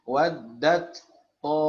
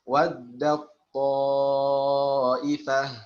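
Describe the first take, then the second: First: The final t is pronounced separately. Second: The final t merges into the following sound. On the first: The speaker calls it wrong. "Jangan sampai terkecoh membaca ... Ini keliru ya" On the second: The speaker calls it right. "itu yang dibaca, yang tertulis kan bukan seperti itu"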